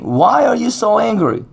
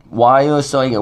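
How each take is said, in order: First: God's question lifted high; high, earnest divine question; pleading high question. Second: Said in the usual way. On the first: Acted. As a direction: raise the pitch and ask it searchingly. God's question to Cain, preached.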